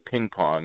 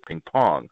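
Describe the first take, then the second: First: The stress falls on the first word. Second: The stress falls on the second word. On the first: "in English, we would say" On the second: "in French, you would say ping pong, ... which sounds a bit funny in English"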